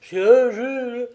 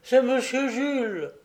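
First: High, loud echo of alarm; louder acted panic in a raised voice; more terrified exclamation. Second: High-pitched, startled recognition; husband's acted dismay, pitched well up; alarmed exclamation. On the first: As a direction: repeat it in greater fright, as the wife. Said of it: "encore plus épouvantée que lui". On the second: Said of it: "s'écria-t-il avec un mouvement d'effroi". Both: A narrator's reading.

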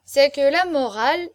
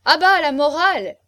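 First: Loud, raised tipsy declaiming; drunken persistence. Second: High, very loud jeer; heckling shout. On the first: Drunk marquis argues his case to hecklers, dogged persistence. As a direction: start the argument with drunken insistence. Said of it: "l'imperturbable ténacité de l'ivresse". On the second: Guests cut off the marquis's moralising, heckling. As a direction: shout it down at full volume. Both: A narrator's reading.

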